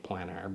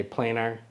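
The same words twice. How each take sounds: First: "planar" with a short A, as in plan. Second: "planar" with a long A, as in plane. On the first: Former English teacher showing the double consonant, short-A planar. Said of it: "the double consonant would make it". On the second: Choosing a pronunciation for one N, long-A planar. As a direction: say "planar" like PLAY-ner. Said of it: "the double consonant would make it planar". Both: Shown as a demonstration.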